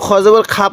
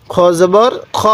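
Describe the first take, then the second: First: খা with an open 'aa' instead of rounded 'kho'; mistaken thin vowel. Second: খ with a rounded, heavy 'o', not 'khaa'; correct heavy kho. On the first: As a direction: show the error, a thin 'khaa' in খা. (খা, পাতলা আ-স্বরে ভুল উচ্চারণ) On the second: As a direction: model a full-mouthed 'kho' in খ. (খ, ভারী অ-স্বরে সঠিক উচ্চারণ) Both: Shown as a demonstration. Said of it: "কেউ খ জবর খা পড়বেন না".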